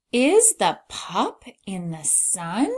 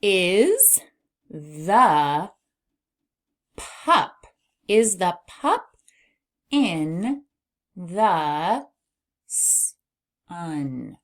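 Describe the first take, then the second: First: "sun" lifted at the end as a question; questioning rise. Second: Each word separate, long pauses between; word-by-word reading. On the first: Teacher shows how a question sounds, voice rising on "sun". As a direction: read it connected, slowly, raising "sun". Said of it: "our voice will go up at the end". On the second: Teacher decodes a sentence for beginners, word by word. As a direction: sound out the sentence one word at a time. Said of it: "All right, now we can read". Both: Shown as a demonstration.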